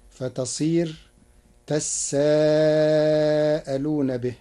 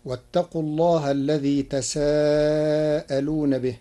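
First: تساءلون said with the س doubled and held, tas-saa-alun; doubled seen. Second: تساءلون recited with a single light س, as in the standard reading; Hafs reading. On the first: Teacher showing Warsh's تساءلون with doubled س. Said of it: "بتشديد السين". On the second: Teacher quoting the usual reading of تساءلون, single س. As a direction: recite تساءلون with the س plain, not doubled. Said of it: "قرأ ورش كلمة تساءلون". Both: Shown as a demonstration.

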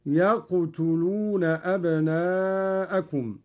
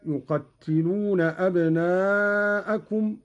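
First: يقتلون said "yaqtuluna", single t; light unvowelled qaf. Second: Said in the usual way. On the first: Shown as a demonstration. Teacher demonstrating Qalun's lightened form, يقتلون as "yaqtuluna". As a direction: open يقتلون with "yaq", then "tu". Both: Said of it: "بفتح الياء".

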